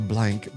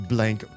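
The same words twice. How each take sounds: The two takes are said the same way.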